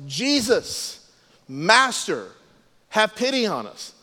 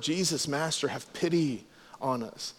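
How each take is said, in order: First: Mildly raised, higher-pitched retold call. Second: Soft, lower reverent plea. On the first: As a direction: imitate lepers calling from a distance, without full volume. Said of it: "they called out in a loud voice". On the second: Retold or imitated. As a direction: quote the plea softly, with respect. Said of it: "to show their love, admiration, respect".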